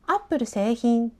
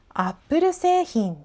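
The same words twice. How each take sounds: First: Pitch follows two separate word accents. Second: Pitch forms one mountain-shaped contour. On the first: The speaker calls it wrong. "アップル製品じゃなくて" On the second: The speaker calls it right. "アップル製品になります。 アップル製品、 この山のような形ですね。"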